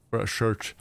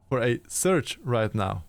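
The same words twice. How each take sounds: First: "search" said with an initial sh, like "shurch"; slipped pronunciation. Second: Said in the usual way. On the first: Real, not acted. Narrator stumbling over the game line, "search" begun with sh. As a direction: slip on "search", starting it with a sh sound. Slips, then corrects the word.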